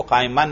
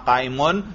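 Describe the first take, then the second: First: काइमन with the ending "-an"; wrong case ending. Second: काइमुन with the ending "-un"; correct case ending. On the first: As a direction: end काइमन on a short a plus n. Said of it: "देखो काइमन नहीं पढ़ना". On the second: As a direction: end काइमुन on a short u plus n. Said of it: "आप क्या पढ़ना है?". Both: Shown as a demonstration.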